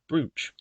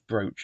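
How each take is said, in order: First: The vowel sounds like 'oo', as in 'boot'. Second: The vowel sounds like 'oh', as in 'broach'. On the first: The speaker calls it wrong. "and not brooch" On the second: The speaker calls it right. "it's pronounced brooch"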